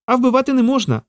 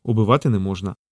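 First: High-pitched squirrel reproach; distressed squirrel, pitched way up; upset squirrel. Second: Said in the usual way. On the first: Acted. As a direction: scold him in a high little creature voice. Squirrel scolds, Peter later repeats it.

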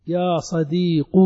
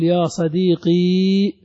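First: يا صديق said slowly with a short u on the qaf; drawn-out يا صديق, the qaf ending in a brief u; slow demo of يا صديق with a dammah ending; final qaf with damma. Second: يا صديقي drawn out, ending on a clear long ee; slow demo of يا صديقي with the ya sounded; final long ee. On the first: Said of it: "بنيت على الضم". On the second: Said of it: "تأتي بالياء". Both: Shown as a demonstration.

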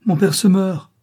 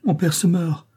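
First: Higher and louder, panicked scream; desperate scream. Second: Higher, alarmed cry. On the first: Juana screams for help, father dying, in panic. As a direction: scream it as he dies before her. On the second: Juana cries out as her father collapses, alarmed. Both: A narrator's reading. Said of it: "Juana pousse un cri".

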